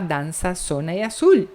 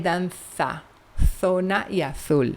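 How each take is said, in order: First: It is said in a Sevillian Spanish accent. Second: It is said in a Peninsular Spanish accent. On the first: "se você vai para Sevilha, eles vão falar" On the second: "se você opta pela variante aqui da Península Ibérica"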